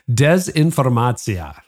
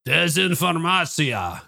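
First: Put-on slow, drawn-out Russian accent on dezinformacja. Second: Put-on slow, drawn-out Russian accent on Desinformatia, voice clearly changed. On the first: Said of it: "I tried my best Russian voice". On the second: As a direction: sound out Desinformatia slowly like a Russian speaker. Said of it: "give me your best Russian voice".

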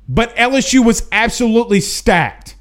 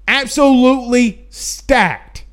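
First: Said in the usual way. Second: "Absolutely" stretched and stressed; drawn-out insistence; slow emphatic repeat. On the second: Real, not acted. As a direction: lean hard on "Absolutely stacked". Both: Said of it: "repeated for emphasis".

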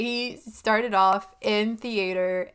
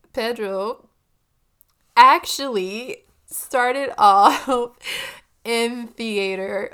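First: Slow, deliberate, composed take on started off in theater; steady yourself and say it slowly, carefully; careful, measured delivery; composed retry. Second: Laughing, stretched-out retry; laughing through it. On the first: Shown as a demonstration. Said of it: "Yes, okay". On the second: Real, not acted. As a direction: fight off giggles, drawing it out slowly. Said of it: "Third time's the charm".

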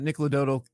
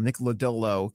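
First: "Lodolo" slurred into lo-DOH-dul; name stumbles as "Lodolo" with a d sound in the middle; slip on the name. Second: Carefully fix "Lodolo" to lo-DOH-loh; corrected name. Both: Real, not acted. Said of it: "I don't know what I just called him".

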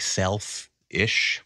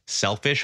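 First: "self-ish" said slowly as two parts, self then ish; split self-ish. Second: Said in the usual way. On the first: Shown as a demonstration. Comedian coining a word about chasing dreams, drawled "self-ish". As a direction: pull "self-ish" apart, stretching it. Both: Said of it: "but, like, self-ish".

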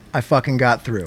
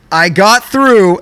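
First: Low and hushed, almost to himself; hushed disbelief. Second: "I got through" stretched slow and louder, leaning on "through"; drawn-out triumph. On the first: Telling his cohost the news in a hushed, stunned voice. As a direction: savor it quietly like you can't believe it. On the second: Announcing the win to his cohost, stretched and proud. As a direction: proclaim "I got through" like a victory. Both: Real, not acted.

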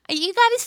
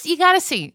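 First: Excited restart. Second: Excited insistence. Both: Real, not acted.

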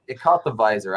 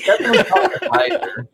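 First: Said in the usual way. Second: Laughing through the words; high-pitched laugh while speaking. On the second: Real, not acted. Laughing while describing replay.

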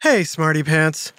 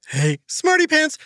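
First: Lower, drowsy hello just after a nap; sleepy greeting. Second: High, cheery hello; bright greeting. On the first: Real, not acted. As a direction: greet them while still half asleep. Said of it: "I just woke up from a nap". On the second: Acted. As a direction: call out brightly to a friend.

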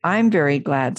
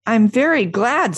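First: Understated happy voice at everyday pitch; Piglet, happy. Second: Higher, lilting happy voice; Pooh, happy. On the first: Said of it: "said Piglet happily". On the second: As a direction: say it brightly, with pleased pride. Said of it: "said Pooh happily". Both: A narrator's reading.

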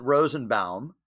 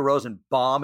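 First: Rosenbaum with the last syllable as "bowm"; pronounced BAUM. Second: Rosenbaum with the last syllable as "bomb"; pronounced BOMB. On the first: Host checks how guest pronounces the name, "bowm" ending. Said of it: "you pronounce it Rosenbaum". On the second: Host repeats what friends say, "bomb" ending. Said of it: "but I hear Rosenbaum". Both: Shown as a demonstration.

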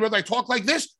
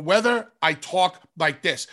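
First: Said in the usual way. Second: Precise, condescending. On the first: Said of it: "I gotta remember that people are smart". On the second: Shown as a demonstration. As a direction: say "talk like this" deliberately and very clearly, with small gaps. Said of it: "comes across in a condescending manner".

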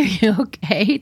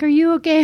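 First: Said in the usual way. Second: Put-on higher, louder worried girl asking; worried classmate. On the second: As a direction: rush in as the worried girl next to her. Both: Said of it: "she's like".

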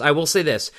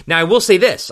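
First: Said in the usual way. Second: First take punched louder and higher; emphatic. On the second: Real, not acted. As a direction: lean hard into "I will say this". Emphatic repeated announcement.

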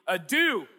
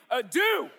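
First: "Adou" called out loud and raised; first emphatic take. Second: "Adou" shouted high and loud; fully emphatic. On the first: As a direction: say "Adou" emphatically, holding some force back. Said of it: "let's say that together emphatically". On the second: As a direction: belt out "Adou" with full force. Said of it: "We need to be emphatic". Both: Shown as a demonstration.

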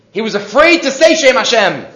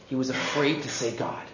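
First: Higher, animated insistence; emphatic repeat. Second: Very soft, low and careful; hushed reverence. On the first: Real, not acted. Teacher explaining Esav's fear to the class, emphatic. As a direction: lift the voice to drive the point home. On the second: Retold or imitated. Teacher on Esav fearing God's name, hushed. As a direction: drop to a hush, as if wary of the word.

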